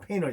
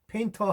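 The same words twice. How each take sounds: First: It has a native English pronunciation. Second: It has a Korean-style pronunciation. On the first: The speaker calls it right. "네이티브들은 painter 이렇게 합니다" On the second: The speaker calls it wrong. "발음을 painter 하지 말고"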